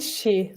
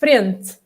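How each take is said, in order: First: The final t sounds like a ch. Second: The final t sounds like a plain t. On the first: "That would be in Brazilian Portuguese" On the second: "And we say frente"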